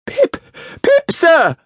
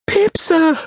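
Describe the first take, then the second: First: Put-on louder, frightened high child voice; speaking up when ordered. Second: Put-on very high small-boy voice; frightened child's answer. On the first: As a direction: squeal it out more forcefully. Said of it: "Give it mouth!". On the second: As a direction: answer timidly, pitched right up. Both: A narrator's reading.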